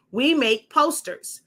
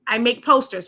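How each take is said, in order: First: We said higher and slower as a correction; correcting myself, hit We; stress on We. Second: Said in the usual way. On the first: Real, not acted. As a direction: lean on We, not I.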